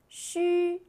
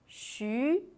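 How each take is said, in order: First: The pitch stays high and level. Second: The pitch rises from mid to high.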